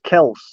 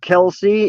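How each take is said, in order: First: The name is said with one syllable. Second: The name is said with two syllables. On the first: The speaker calls it right. "It's actually just Kels" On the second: The speaker calls it wrong. "Everybody pronounces it Kelsey"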